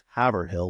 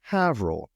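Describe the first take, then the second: First: It is said as three syllables, Haver-hill. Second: It is said as two syllables, like Avril. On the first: "It's not pronounced Haverhill like my Jersey self said" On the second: "It's pronounced Havril"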